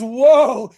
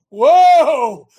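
First: A loud stop-right-there whoa. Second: High, loud warning whoa; louder higher whoa. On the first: Host to viewers, a loud warning whoa. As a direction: bark whoa like stopping a horse. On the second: Host repeats the warning whoa to viewers, loud. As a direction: halt them with a loud whoa. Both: Shown as a demonstration. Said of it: "he is saying W H O A".

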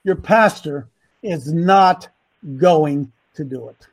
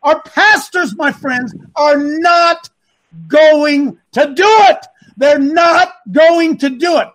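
First: Slow, lowered voice, pausing after "not"; real slow. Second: Raised voice, punching "not" and "going to do it"; emphatic rant. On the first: Shown as a demonstration. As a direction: spell out "not going to do it" slowly and deliberately. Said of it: "Let me say it again, real slow". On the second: Real, not acted. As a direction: hammer "not going to do it" loudly, word by word. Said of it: "that's a rant".

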